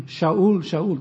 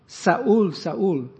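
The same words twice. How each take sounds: First: "Shaul, Shaul" starting with a clear sh sound, Hebrew style. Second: "Saul, Saul" said with a plain s sound, as in Greek. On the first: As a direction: call out "Shaul, Shaul" with sh, not s. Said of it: "the Lord spoke in Hebrew to him". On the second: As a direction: call out "Saul, Saul" starting with a clean s. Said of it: "They only have sa". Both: Shown as a demonstration.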